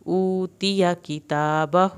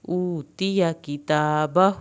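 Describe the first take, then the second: First: "اوتیہ" with the ya vowel kept short, slow; slow careful recitation. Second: "کتابہ" ending with a long stretched hu; slow careful recitation; long inverted damma. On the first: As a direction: do not stretch the ya in "اوتیہ". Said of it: "یا کی زبر کو ہم نے نہیں کھینچنا". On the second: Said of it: "ہو الٹا پیش کو خوب کھینچنا ہے". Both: Shown as a demonstration.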